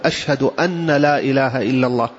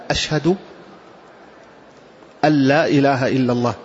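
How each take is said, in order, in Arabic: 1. صوت النون قبل 'la' يُنطق بوضوح. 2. صوت النون يندمج في اللام التي بعده. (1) "يخطئ بعض الناس حينما يقول" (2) "الصواب أن تقال هكذا: ... تكتب ولا تنطق"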